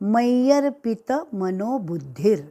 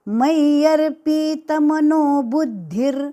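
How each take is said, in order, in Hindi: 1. 'p' के बाद का स्वर ह्रस्व है। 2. 'p' के बाद का स्वर दीर्घ है। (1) "यहाँ पे पी जो है वह ह्रस्व है" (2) "गलती से यहाँ पे पी दीर्घ ली जाती है ... लेकिन यह उच्चारण गलत"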